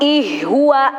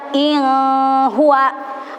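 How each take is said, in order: First: The n sound becomes an h sound. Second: The n sound is weak and not clear. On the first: "tidak boleh dibaca ... ih huwa" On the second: "tidak boleh dibaca in huwa"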